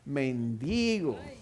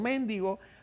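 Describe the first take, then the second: First: The stress is on the second syllable. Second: The stress is on the first syllable. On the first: The speaker calls it right. "así como es mendigo" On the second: The speaker calls it wrong. "no mendigo"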